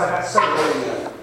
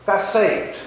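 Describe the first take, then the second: First: Slowed right down and lower; solemn slow testimony. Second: Said in the usual way. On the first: Real, not acted. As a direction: let each word land with weight. Testimony, emphatic conviction.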